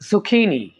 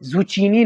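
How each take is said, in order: First: The middle consonant is a 'k' sound. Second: The middle consonant is a 'ch' sound. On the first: The speaker calls it right. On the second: The speaker calls it wrong.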